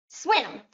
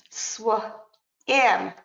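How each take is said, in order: First: Said in the usual way. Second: "Sw" and "im" said apart with a pause between; segmented sounds. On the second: Shown as a demonstration. Teacher modelling onset and rhyme, sounds apart. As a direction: split the sounds as "Sw" and "im". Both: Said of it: "let me give you a few examples".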